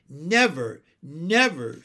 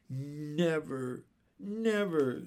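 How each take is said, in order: First: NEVER punched louder each time; emphatic. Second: Understated, wistful never; sad. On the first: Jane agreeing about the afternoon, "never" said emphatically. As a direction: insist warmly on each "never". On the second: Michael sorry the afternoon is over, understated sadness. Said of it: "said Michael sadly". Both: A narrator's reading.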